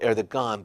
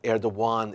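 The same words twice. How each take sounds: First: The name is read the way it is spelled. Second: The name is said with Turkish pronunciation. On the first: "It's spelled Erdogan" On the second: "Erdogan is how we pronounce it in Turkish"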